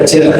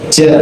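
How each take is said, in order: Both takes have the same delivery.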